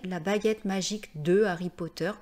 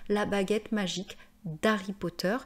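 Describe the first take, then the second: First: The word de is said in full. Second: The word de is shortened to d'. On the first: The speaker calls it wrong. "écoutez à l'oreille" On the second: The speaker calls it right. "moi je trouve plus jolie"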